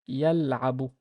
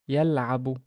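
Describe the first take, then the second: The two takes are said the same way.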